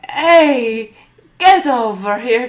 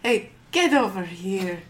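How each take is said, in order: First: The call is said at a louder level. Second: The call is said at a quiet, normal level.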